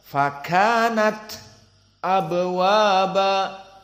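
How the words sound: A brief silent stop follows the final t. The reader prepares to pronounce the following glottal stop. "disakat istidadan untuk masuk kepada makhraj hamzah"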